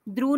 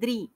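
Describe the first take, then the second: First: The syllable ends in a 'u' vowel. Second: The syllable ends in an 'i' vowel. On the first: The speaker calls it wrong. "नहीं" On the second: The speaker calls it right. "द में री की मात्रा द्रि"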